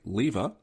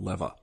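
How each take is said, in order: First: The first vowel is a long 'ee' sound. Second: The first vowel is a short 'eh' sound. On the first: This is the speaker's own accent's way. "as an Australian, we say lever ... we rhyme fever and lever" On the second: This is how another accent says it. "not lever ... they rhyme ever and lever"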